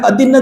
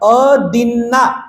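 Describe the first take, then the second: First: The final vowel is short and clipped. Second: The final vowel is long and drawn out. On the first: The speaker calls it wrong. "ते चुकीचा शब्द आहे" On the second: The speaker calls it right. "अदिन्ना आ आ"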